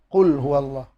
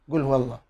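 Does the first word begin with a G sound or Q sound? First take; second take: Q sound; G sound. First: The first word begins with a deep Q sound. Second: The first word begins with a hard G sound. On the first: This is the usual reading. "bacaan yang biasa kita baca" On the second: This is how Yemenis read it. "orang Yaman baca gul"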